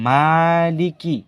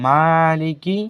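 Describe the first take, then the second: The two takes are said the same way.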